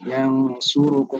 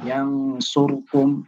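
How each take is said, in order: First: The vowel after the r is shortened, barely heard. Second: The vowel after the r is dropped completely. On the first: "disamarkan menjadi ikhtilas" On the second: "disukunkan bahkan"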